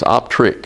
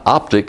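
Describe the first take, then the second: First: It is said with an R sound. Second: It is said without an R sound. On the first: The speaker calls it right. "Notice there is an R there" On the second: The speaker calls it wrong. "It's not optic"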